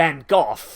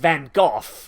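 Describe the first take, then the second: First: The name is said with a British pronunciation. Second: The name is said with a British pronunciation.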